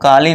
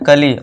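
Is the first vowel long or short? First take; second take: long; short. First: The first vowel is a long 'aa' sound. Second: The first vowel is short and barely sounded. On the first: The speaker calls it wrong. "काली नहीं" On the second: The speaker calls it right. "इसे क्या पढ़ना, कली"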